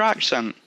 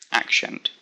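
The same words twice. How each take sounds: First: Said in the usual way. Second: Put-on "accent" with a sh sound, ack-shent; Sean Connery slur. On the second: Playing on own word, "accent" slurred to ack-shent like a famous actor. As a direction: say "accent" quietly, turning the s into sh. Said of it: "Like Sean Connery".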